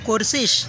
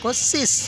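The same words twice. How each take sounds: First: The final consonant is a soft sh sound. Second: The final consonant is a hissing s sound. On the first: This is how the speaker's own region says it. "আমরা শকে" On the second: This is how the neighbouring district says it. "ওরা স উচ্চারণ করে স"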